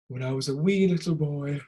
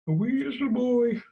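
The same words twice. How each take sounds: First: Said in the usual way. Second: Put-on high squeaky little boy. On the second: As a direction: squeak like a tiny kid.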